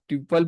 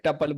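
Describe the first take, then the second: First: The first syllable sounds like 'tyoo'. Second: The first syllable sounds like 'tuh'. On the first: "आप ट्यूपल बोलिए" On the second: "या टपल बोलिए"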